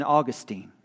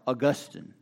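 First: Put-on "Augustine" said AW-gus-teen; first pronunciation variant. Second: "Augustine" said uh-GUS-tin; alternative pronunciation. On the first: Preacher offering one name variant, "Augustine" as AW-gus-teen. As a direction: end "Augustine" in a long "teen", stressed at the front. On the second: Preacher offering the other variant, "Augustine" as uh-GUS-tin. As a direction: stress the GUS in "Augustine", short "tin" ending. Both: Shown as a demonstration. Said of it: "however you want to say it".

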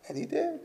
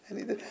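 First: Hushed affirmation. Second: Softer echo. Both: Shown as a demonstration.

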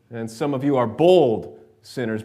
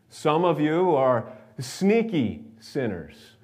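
First: "bold" punched out loud; stress on bold. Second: "sneaky" drawn out with raised pitch; stress on sneaky. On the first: Preacher sorting the congregation's sinners, loud stress on "bold". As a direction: hit "bold" hard and loud. Bold set against sneaky. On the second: Preacher sorting the congregation's sinners, slow stress on "sneaky". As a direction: stretch "sneaky" slowly and playfully. Sneaky set against bold. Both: Shown as a demonstration.

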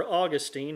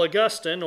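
First: Put-on "Augustine" stressed on the first syllable, AW-gus-teen; "Augustine" as AW-gus-teen, rhyming its end with "seen"; alternative pronunciation. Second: "Augustine" stressed on the middle syllable, aw-GUS-tin; "Augustine" with GUS stressed and a short "tin" ending; first pronunciation. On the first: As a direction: say "Augustine" with a long "teen" ending. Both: Shown as a demonstration. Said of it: "however you choose to pronounce it".

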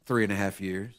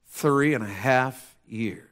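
First: Low, soft pulpit answer; hushed emphasis. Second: Drawn-out, weighty delivery; slow emphasis. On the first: Preacher answers his own question to church, hushed. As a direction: drop to a hush on it. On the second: Preacher lets the long wait sink in, slow. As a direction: stretch each word out slowly. Repeats answer slowly for weight. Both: Real, not acted.

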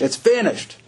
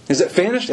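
First: "It's finished." answered firmly with a falling tune; falling, final tune on "finished"; settled answer. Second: "Is it finished?" asked with a rising question tune. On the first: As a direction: close "It's finished." down with certainty. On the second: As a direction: pose "Is it finished?" as a real question, lifting at the end. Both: Shown as a demonstration. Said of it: "question then answer".

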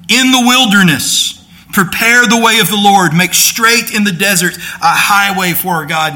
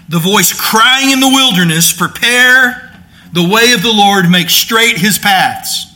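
First: Loud, high "In the wilderness", pause, then "prepare the way of the Lord"; "In the wilderness" belongs to the cry, said high and loud; phrasing: cry begins in the wilderness. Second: Group "in the wilderness" with "voice", break before "Prepare"; "Prepare the way of the Lord" set apart as the cry; phrasing: voice in the wilderness. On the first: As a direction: open the cry with "In the wilderness" and break after it. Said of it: "and here's what he's quoting".

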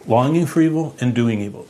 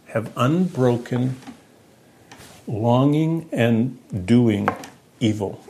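First: Said in the usual way. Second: Slow, with long pauses between the words; slow, drawn out. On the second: Shown as a demonstration. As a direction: let each word land on its own: unbroken, longing, doing, evil.

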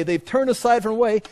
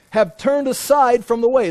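First: Said in the usual way. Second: "aside" hit louder and higher, falling at the end; emphatic declaration. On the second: Shown as a demonstration. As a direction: proclaim "have turned aside from the way" with force.

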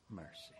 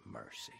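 First: Said in the usual way. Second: Rising high, answering the question; "Mercy" sung out rising. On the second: Shown as a demonstration. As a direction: lift "Mercy" up high like a call.

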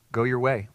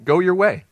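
First: Said in the usual way. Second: Jesus sending the healed man off, louder; firm release. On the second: Retold or imitated. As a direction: Go your way much louder and higher. Jesus giving permission.

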